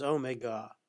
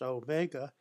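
First: Omega said the British way, OH-meg-uh; British-style Omega, first syllable stressed; English pronunciation. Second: Said in the usual way. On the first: Shown as a demonstration. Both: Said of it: "the English pronounced Omega as Omega".

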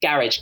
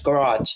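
First: Garage as GA-ridge, first syllable stressed; British-style GA-ridge; British pronunciation. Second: Garage as guh-RAHZH, second syllable stressed; American-style guh-RAHZH; American pronunciation. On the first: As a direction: say garage to rhyme with carriage. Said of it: "we're used to saying it like". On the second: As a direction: say garage with a long open AH ending. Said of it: "they're used to saying". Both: Shown as a demonstration.

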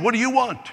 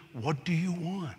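First: Higher and insistent, pushing the listener; pressing, emphatic question. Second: Quiet and unhurried, Jesus asking gently; soft, slow question. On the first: Preacher pressing the congregation, high and insistent. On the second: Jesus quietly asking the blind beggar, soft and slow. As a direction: let the question land softly. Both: Acted.

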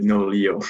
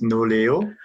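First: Nolio said "NO-lee-oh"; common US pronunciation. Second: Noleo said "no-LAY-oh"; founder's pronunciation. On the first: Founder shows how Americans say it, pronouncing Nolio as "NO-lee-oh". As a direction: say "Nolio" with an "ee" in the middle. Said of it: "most people pronounce it Nolio". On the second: Founder introduces his company's name, pronouncing Noleo as "no-LAY-oh". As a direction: say "Noleo" with an "ay" in the middle. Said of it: "company is pronounced Noleo". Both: Shown as a demonstration.

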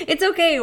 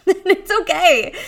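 First: Calm them down after the laugh; reassuring. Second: High, slow, through laughter; laughing it off. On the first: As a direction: still high, quicker settling reassurance. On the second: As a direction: laugh while you say it's okay. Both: Real, not acted.

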